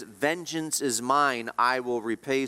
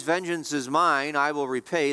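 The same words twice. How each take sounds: First: Slow, leaning hard on "mine"; "Vengeance is mine" with "mine" drawn out and stressed. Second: "mine" given the weight of the line; "mine" stressed as God's own claim. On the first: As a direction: land "mine" with weight, slowly. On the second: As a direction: punch "mine" in "Vengeance is mine". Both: Shown as a demonstration. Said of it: "the mine is emphatic".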